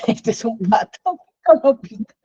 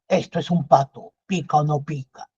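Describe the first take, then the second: First: It is said while laughing. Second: It is said in a stern commanding voice. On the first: "riéndonos" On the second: "con voz de militar"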